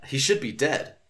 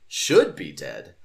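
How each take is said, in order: First: Said in the usual way. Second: Much lower, slow and louder on "Should be dead"; ominous echo. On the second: Shown as a demonstration. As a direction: drop deep and drag out "Should be dead". Repeats line in ominous voice.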